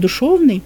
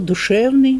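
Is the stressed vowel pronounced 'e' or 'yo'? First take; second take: yo; e. First: The stressed vowel is pronounced as 'yo'. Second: The stressed vowel is pronounced as 'e'. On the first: This is the native Russian form. "оно должно быть «душевный» по-русски" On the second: This is the Church Slavonic form used in the literary language. "даже слово «душевный»"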